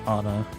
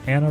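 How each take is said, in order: First: The first vowel sounds like the word 'on'. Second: The first vowel sounds like the word 'Anne'.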